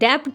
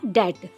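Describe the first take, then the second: First: A b-like sound is heard before the t. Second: No b sound is heard before the t. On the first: The speaker calls it wrong. "इसको डेप्ट नहीं पढ़ेंगे" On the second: The speaker calls it right. "इसमें बी silent है, इसको पढ़ा जाएगा डेट"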